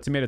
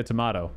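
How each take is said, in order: First: "tomato" said to-MAY-to. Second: "tomato" said to-MAH-to. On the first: Shrugging off a small date mix-up, "tomato" as to-MAY-to. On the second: Shrugging off a small date mix-up, "tomato" as to-MAH-to. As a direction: say "tomato" with a broad AH in the middle. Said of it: "but tomato". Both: Shown as a demonstration.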